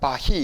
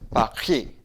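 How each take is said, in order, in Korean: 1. r은 그냥 h 소리로 발음해요. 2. r은 목에서 나는 r 소리로 발음해요. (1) "빠히 이게 아니고" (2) "빠히 이런 발음이에요"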